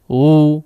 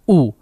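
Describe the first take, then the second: First: The vowel starts softly without a clear catch. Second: The vowel starts with a clear glottal catch. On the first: The speaker calls it wrong. "tidak u, u tidak jelas" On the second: The speaker calls it right. "Huruf hamzah ketika diucapkan ada awalannya"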